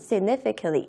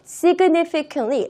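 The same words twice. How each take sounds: First: The G sound is weakened and softened. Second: The G sound is pronounced fully and clearly. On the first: "G 발음을 조금 약하게 해주시면 좀 더 부드럽게" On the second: "이 G를 significantly 라고 발음을 하셔도 틀린 건 아니지만"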